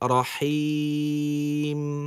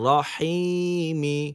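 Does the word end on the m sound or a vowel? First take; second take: m; vowel. First: The word ends on the m sound. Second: The word ends with a short vowel after m. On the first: The reciter stops at this word. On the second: The recitation continues without stopping.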